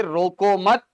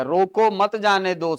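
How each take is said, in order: First: रोको मत as one unit, rising on मत; break after मत. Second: Slow "रोको", then मत जाने दो as its own phrase; pause after रोको. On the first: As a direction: join रोको and मत, lifting the end. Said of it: "गलत जगह पर आपने ब्रेक लगा दिया". ("रोको मत" एक साथ, मत पर उठता सुर) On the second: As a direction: set रोको apart from "मत जाने दो". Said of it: "अर्थ सीधे एक सौ अस्सी डिग्री बदल गया". (रोको के बाद हल्का विराम, धीरे "मत जाने दो") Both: Shown as a demonstration.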